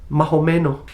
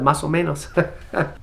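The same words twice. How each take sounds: First: It is said with a Dominican Spanish accent. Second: It is said with a neutral Spanish accent. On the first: "you're a Dominican. You just said" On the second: "instead of"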